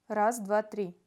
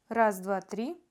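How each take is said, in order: No difference in how they are said.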